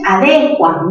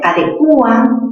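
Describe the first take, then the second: First: The stress falls on the syllable de. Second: The stress falls on the syllable cu. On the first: "¿dónde está la mayor fuerza? En D" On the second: "la U es cerrada, que está en contacto con una abierta"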